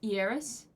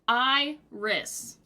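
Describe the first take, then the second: First: The word begins with an 'ee'-like sound. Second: The word begins with an 'eye' sound. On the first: "E like a little bit of an E?" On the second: "would be said like iris"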